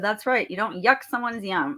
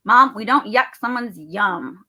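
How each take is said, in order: First: Said in the usual way. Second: Put-on slow, louder child's admonishment; imitated kid. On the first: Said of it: "I said". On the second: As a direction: imitate a kid firmly setting Mom straight. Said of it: "She goes".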